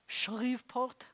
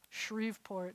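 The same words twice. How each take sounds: First: The r is a guttural Israeli r. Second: The r is an ordinary English r. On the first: The speaker sounds like a Hebrew speaker. "have you been studying Hebrew long? That sounds nice in Israeli" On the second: The speaker sounds like a local English speaker. "they're going to know where you're from"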